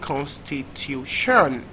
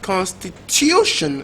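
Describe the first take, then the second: First: The stress is on the fourth syllable. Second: The stress is on the third syllable. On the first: The speaker calls it wrong. "last syllable" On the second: The speaker calls it right.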